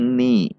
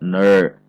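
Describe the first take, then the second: First: The syllable is thin and light. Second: The syllable is heavy and full-mouthed. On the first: The speaker calls it right. "ni-nya masih tipis atau tarkik" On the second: The speaker calls it wrong. "tidak ner"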